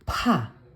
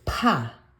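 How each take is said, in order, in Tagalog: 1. Binibitawan ang katinig nang may malakas na buga ng hangin. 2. Binibitawan ang katinig nang may malakas na buga ng hangin.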